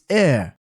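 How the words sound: The final R is barely pronounced.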